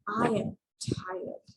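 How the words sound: The voice sounds weary and drained. The speaker is genuinely exhausted. "So you can almost feel the tiredness in my voice"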